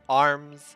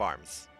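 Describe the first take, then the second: First: The word is set off with heavy emphasis. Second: The word is said plainly without emphasis. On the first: The word is treated as a special name. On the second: The word is an ordinary word.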